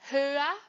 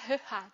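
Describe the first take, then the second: First: The middle has no raspy ch sound. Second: The middle has a raspy ch sound. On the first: The speaker calls it right. "Então fica höher" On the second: The speaker calls it wrong. "para não precisar falar höher, né? Que ia ficar estranho"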